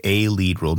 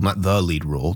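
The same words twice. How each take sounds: First: "a" stressed as a full "ay". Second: "the" stressed as a full "thee". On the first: Host narrowing a question to Rosie, stress on "a". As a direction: lean on "a" to mean one of several. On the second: Host ruling out the bigger claim, stress on "the". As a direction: lean on "the" to mean the only one. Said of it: "but a lead role". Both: Real, not acted.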